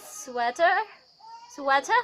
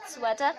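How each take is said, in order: First: American "sweater" with the final R sounded; American accent. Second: RP "sweater" ending in "-tuh", no R; RP accent. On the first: Teacher giving another American example, American accent. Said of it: "in American, then in R P". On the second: Teacher redoing the example word, RP accent. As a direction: say sweater in posh British RP. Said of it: "in R P it's". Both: Shown as a demonstration.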